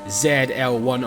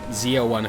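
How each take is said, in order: First: The letter Z is said the non-American way. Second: The letter Z is said the American way.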